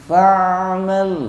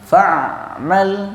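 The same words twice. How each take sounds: First: The ain sound flows on without a break. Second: The ain sound is cut off abruptly. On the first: The speaker calls it right. "tapi fa'mal ya" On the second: The speaker calls it wrong. "ainnya tidak putus, jadi tidak dibaca fa'mal"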